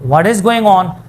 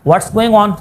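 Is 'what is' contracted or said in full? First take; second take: full; contracted. First: What and is are said as separate words. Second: What is is shortened to one syllable. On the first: "असल लफ्ज है इज, व्हाट इज" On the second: "contraction"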